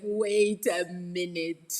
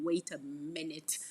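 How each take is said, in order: First: Loud, very drawn-out mock realisation; slow, hammed-up objection; dawning indignation. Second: Said in the usual way. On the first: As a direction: stretch it out loudly, as if it just hit you. Repeats her delayed reaction, hammed up.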